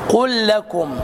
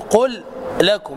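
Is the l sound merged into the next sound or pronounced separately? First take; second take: merged; separate. First: The two l sounds merge into one doubled l. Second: The first l is pronounced separately from the second. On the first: The speaker calls it right. "فنقول" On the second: The speaker calls it wrong. "لا تقل"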